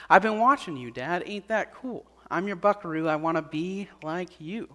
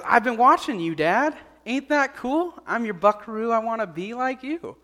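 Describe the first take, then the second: First: Gently retold child's answer, softening toward the end; a hint of a sincere kid, in the teller's own pitch; admiring young son. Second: Lightly voiced boy, higher and lively; a hint of an eager kid proudly answering Dad; admiring young son. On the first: Son answers his praying father's question at bedtime, lightly voiced and gentle. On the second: Son tells his father where he learned it, lightly voiced eager kid.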